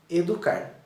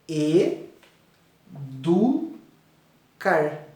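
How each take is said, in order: First: The word is said whole without a break. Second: The word is split into three separate syllables.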